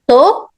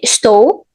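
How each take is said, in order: First: The first syllable is dropped, leaving one syllable. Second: The word is said in full with both syllables. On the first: "We can just cut the first syllable completely" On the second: "of course I can say estou"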